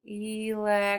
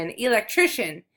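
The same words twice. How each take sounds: First: "Electrician" stretched out in separate syllables; sounding it out. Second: Said in the usual way. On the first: Shown as a demonstration. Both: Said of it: "Let's figure this one out together".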